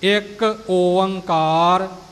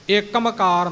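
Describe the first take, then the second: First: The middle has two vowels, O-ang: Oankar. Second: It is run together with an m sound: Ikmkar. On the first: The speaker calls it right. "ਇਉਂ ਇਹ ਸ਼ੁੱਧ ਉਚਾਰਨ ਹੋਵੇਗਾ ਜੀ" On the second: The speaker calls it wrong. "ਇੱਕਮਕਾਰ ਨਹੀਂ"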